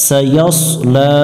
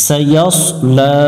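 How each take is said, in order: Both takes have the same delivery.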